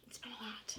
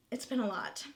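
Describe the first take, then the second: First: Whispered, barely there. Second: Said in the usual way. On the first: Real, not acted. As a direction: repeat it in a breathy whisper.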